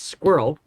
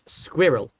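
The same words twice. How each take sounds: First: It is said in a North American accent. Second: It is said in a British accent. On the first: "on the North American side of the pond" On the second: "on the other side of the pond"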